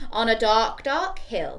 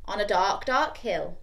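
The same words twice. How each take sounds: First: "dark" leaned on, phrase a bit louder; stress on dark. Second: "dark" leaned on both times; stress on dark. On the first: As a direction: press each "dark" for the kids to join. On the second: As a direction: hit each "dark" firmly. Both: Shown as a demonstration. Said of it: "join in with the dark, dark bits".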